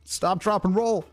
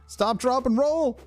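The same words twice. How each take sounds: First: Higher, quick chant of the safety rule; urgent. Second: Even higher, more desperate chant; near-squeal chant; more frantic. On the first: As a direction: recite it in a hurry. Trying to put out fire. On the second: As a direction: rise in panic on repeat. Fire still not out. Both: Real, not acted.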